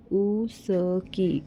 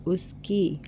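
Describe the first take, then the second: First: उसकी said very slowly, syllable by syllable; teacher sounding out उसकी for children. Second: Said in the usual way. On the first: Shown as a demonstration. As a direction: draw out उसकी so each sound is clear. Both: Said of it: "जैसे कि ये".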